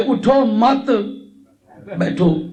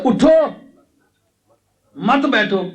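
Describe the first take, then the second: First: اٹھو مت run together, long pause, then a low بیٹھو; pause after مت. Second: اٹھو on its own, long pause, then مت بیٹھو together; pause after اٹھو. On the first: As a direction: join اٹھو to مت and break before بیٹھو. ("اٹھو مت" ملا کر وقف، پھر "بیٹھو") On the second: ("اٹھو" کے بعد وقف، پھر "مت بیٹھو" ملا کر) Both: Shown as a demonstration. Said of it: "وقف اور جگہ کر دیا".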